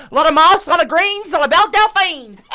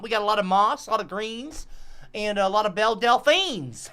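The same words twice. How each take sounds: First: High, loud, laughing bayou-guide cry. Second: Lightly voiced bayou guide, easygoing list; folksy swamp guide. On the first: Acted. Guide hypes swamp sights to tourists, gleefully laughing. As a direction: whoop the list through giggles. Guide repeats list, cackling with glee. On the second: Guide lists swamp sights to tourists, folksy and easy.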